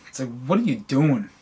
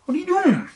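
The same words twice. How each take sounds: First: Said in the usual way. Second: Much higher, disbelieving repeat; incredulous high squeak. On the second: Retold or imitated. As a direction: ask it again in a high, incredulous voice.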